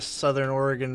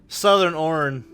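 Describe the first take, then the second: First: Oregon is said with all three syllables. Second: Oregon is clipped to two short syllables.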